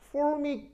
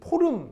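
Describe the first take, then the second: First: It is said the English way, ending in -mic. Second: It is said the Japanese way, as po-reum. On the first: The speaker calls it right. "formic 이런 발음" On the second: The speaker calls it wrong. "걔들이 포름 이렇게 하는 거를"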